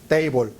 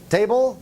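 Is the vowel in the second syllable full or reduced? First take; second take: full; reduced. First: The second syllable has a full, clear vowel. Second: The second syllable has a weak schwa vowel. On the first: The speaker calls it wrong. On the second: The speaker calls it right.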